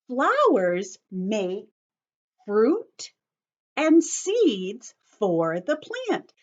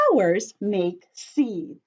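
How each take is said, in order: First: Flowers make fruit and seeds stretched out slowly, each key word leaned on; slow emphatic reread. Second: Said in the usual way. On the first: Shown as a demonstration. Teacher repeats the key sentence for listening children, slow and emphatic. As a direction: spell it out slowly so the class catches the job. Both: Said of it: "Listen again".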